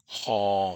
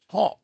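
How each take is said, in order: First: The vowel is long, low and relaxed. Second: The vowel is short and cut off. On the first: "haw for long or relaxed vowel" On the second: "haw for short vowel"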